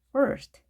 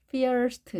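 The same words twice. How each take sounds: First: The vowel is an r-colored 'er' sound. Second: The vowel is said like 'ee' before the r. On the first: The speaker calls it right. "er 발음 나는 것도 기억해 주시기 바랍니다" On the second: The speaker calls it wrong. "처음 보신 분들이 first 이렇게 읽는 경우도 있더라고요"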